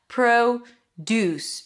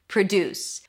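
First: The stress is on the first syllable. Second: The stress is on the second syllable. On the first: It is a noun: things grown on a farm. "Here we say it with the o sound. That's the primary stress" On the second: It is a verb: to make something. "second syllable is stressed. Deuce, that's the primary stress"

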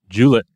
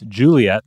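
First: The name is said with two syllables. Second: The name is said with three syllables.

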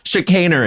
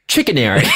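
First: The word starts with a soft 'shi' sound. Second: The word starts with a hard 'chick' sound. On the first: The speaker calls it right. "how you really say it" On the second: The speaker calls it wrong. "how do you pronounce that word? She looks at it. Pregnant pause"

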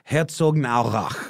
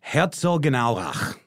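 First: The middle 'gen' syllable is blurred together. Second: The middle 'gen' syllable is pronounced fully. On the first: The speaker calls it right. "more like" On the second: The speaker calls it wrong. "I think I overpronounced the gen"

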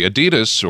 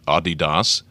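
First: Adidas is said the American way. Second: Adidas is said the European way.

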